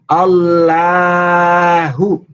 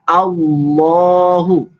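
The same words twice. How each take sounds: First: The L is thin, with unrounded lips. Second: The L is heavy, with rounded lips. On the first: The speaker calls it wrong. "Nggak boleh dibaca Allahu" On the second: The speaker calls it right. "Tapi dibaca Allahu, berbentuk O"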